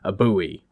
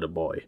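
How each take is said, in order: First: Buoy is said in an American accent. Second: Buoy is said in a British accent.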